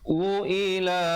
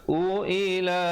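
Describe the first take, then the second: Both takes have the same delivery.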